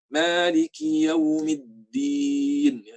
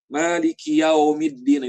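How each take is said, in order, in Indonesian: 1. Vokal itu meluncur ke bunyi u. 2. Vokal itu meluncur ke bunyi o. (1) "harusnya yau, yau ke u gitu ya" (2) "Itu salah"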